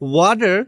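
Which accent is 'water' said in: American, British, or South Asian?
American. It is said in an American accent. "Is the correct way in American accent"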